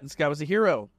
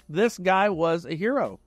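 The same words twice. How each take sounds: First: Said in the usual way. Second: Slower, weight on hero; a solemn second telling of "hero"; slow emphatic repeat. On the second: Real, not acted. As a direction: let "hero" land slow and heavy.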